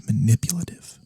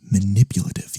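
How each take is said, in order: First: Whispered word. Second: Said in the usual way. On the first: Acted. Incubus repeats the found word.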